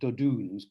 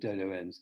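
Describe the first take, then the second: First: The name is said with a Flemish-style pronunciation. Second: The name is said with an English-style pronunciation. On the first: This is how a native speaker says it. "my um, Flemish friend says something like Dodoens" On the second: This is the speaker's own habitual way of saying it. "I'll stick with, with Dodoens"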